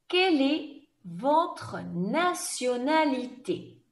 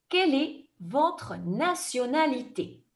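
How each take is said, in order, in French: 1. La question est dite lentement. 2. La question est dite rapidement. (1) "je vais reposer la question plus lentement" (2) "je vais poser la question rapidement comme dans un examen"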